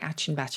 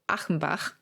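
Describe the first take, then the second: First: The name is pronounced with English sounds. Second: The name is pronounced with German sounds. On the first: "he might say Achenbach" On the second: "I'm pronouncing it the German way"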